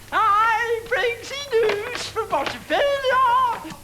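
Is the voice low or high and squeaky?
high, squeaky. The voice is higher and squeaky.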